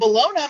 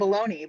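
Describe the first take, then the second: First: It is said closer to its spelling. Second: It is said in the Americanized way. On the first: This is the form that fits the spelling. "that makes more sense for the spelling. You still got that silent G in there" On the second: This is the form used growing up. "it was always baloney growing up"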